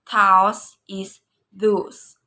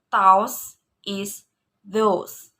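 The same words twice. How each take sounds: First: Those is those slow, stress on Those; rising tone. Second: Those is those as a question; rising question on those. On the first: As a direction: slowly lean on Those. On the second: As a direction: ask it rising. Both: Shown as a demonstration. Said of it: "rising tone".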